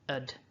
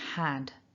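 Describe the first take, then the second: First: It has a schwa vowel and no h. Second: It has a full vowel, as in cat. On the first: "drop the H completely" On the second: "the strong form of this word is had"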